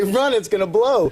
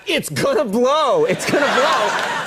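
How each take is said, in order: First: Panicked warning call, pitched up; shouting a warning. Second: Higher, slow mock shout; shouting a warning. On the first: Retold or imitated. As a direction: yell it in a panic, higher. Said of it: "and I panic, and I say". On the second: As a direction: yell it out to the crowd. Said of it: "I was shouting to the crowd".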